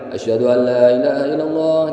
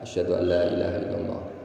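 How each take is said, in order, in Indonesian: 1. Frasa ini diucapkan dengan keras, dengan suara tinggi. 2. Frasa ini diucapkan dengan pelan, dengan suara rendah. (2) "kita membaca pelan terlebih dahulu untuk diri kita"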